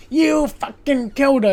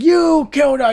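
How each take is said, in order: First: Higher, louder accusing yell; angry yell. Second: Higher, much louder accusing yell; angry yell. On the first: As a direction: hurl the blame at him. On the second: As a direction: shout the accusation at full force. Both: Retold or imitated. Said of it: "he starts screaming and ranting".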